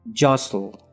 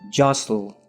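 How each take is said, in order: No difference in how they are said.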